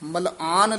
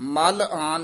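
First: The word is said joined without a break. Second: The word is split with a break inside. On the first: The speaker calls it right. "ਮਲਆਨ ਪਾਠ ਇਕੱਠਾ ਹੀ ਹੈ" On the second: The speaker calls it wrong. "ਮਲ ਆਨ ਨਹੀਂ ਕਹਿਣਾ"

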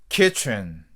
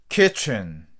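No difference in how they are said.

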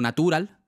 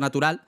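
First: The stress falls on an unusual syllable. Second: The stress falls on the word's usual syllable. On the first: The speaker calls it wrong. "no natural" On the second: The speaker calls it right. "el acento natural"

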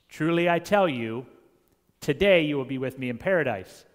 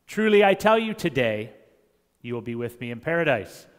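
First: The pause comes before the word today. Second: The pause comes after the word today.

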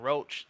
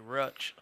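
First: The vowel is a long 'oh' sound. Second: The vowel is a short 'uh' sound. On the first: This is the usual way of saying it. "instead of saying roach" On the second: This is how older relatives say it. "they say rutch"

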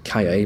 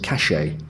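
First: The double L is not a sh sound. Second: The double L is a sh sound. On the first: This is the general Spanish form. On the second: This is the Uruguayan or Argentinian form.

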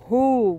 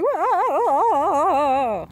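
First: It is said in a deep voice. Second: It is said in a light, weak voice.

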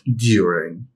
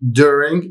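First: It is said with a non-American pronunciation. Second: It is said with an American pronunciation. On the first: The speaker calls it wrong. "not during" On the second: The speaker calls it right. "بس هي American"

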